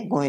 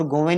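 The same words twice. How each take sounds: First: गोएं without v, go-en; correct form. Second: गोवें with a v, go-ven; incorrect form. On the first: Teacher giving the correct plural, गोएं with no v. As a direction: glide straight between the vowels in गोएं. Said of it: "गोएं लिखेंगे". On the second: Teacher rejecting the written error, गोवें with a v. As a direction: sound the v in the middle of गोवें. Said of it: "और गोवें नहीं लिखे". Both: Shown as a demonstration.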